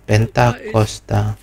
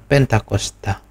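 First: The word is split with a break between parts. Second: The word is said smoothly without any break. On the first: The speaker calls it wrong. "Jangan menyebutnya secara terpisah-pisah" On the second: The speaker calls it right. "jadi menyebutnya harus bersamaan"

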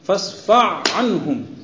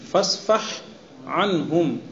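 First: The h sound is merged into the following ain. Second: The h sound is kept distinct before anhum. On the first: The speaker calls it wrong. "इदगाम के साथ पढ़िए" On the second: The speaker calls it right. "बगैर इदगाम के"

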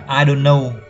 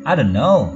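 First: The pitch stays level throughout. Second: The pitch moves up and down like waves.

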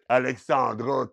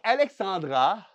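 First: The A vowels sound broad, heavy and raspy. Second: The A vowels sound plain and light.

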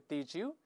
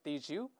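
First: The two words blend into a j sound. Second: The two words blend into a j sound.

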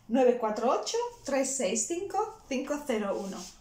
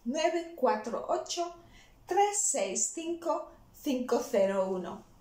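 First: It is said at a faster pace. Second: It is said at a slower pace.

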